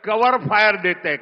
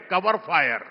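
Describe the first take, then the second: First: cover fire रapidly at normal level; quick. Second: cover fire repeated softly; quiet echo. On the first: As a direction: rattle it off fast. (कवर fire तेज़ी से) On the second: (cover fire धीमी आवाज़ में) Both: Real, not acted.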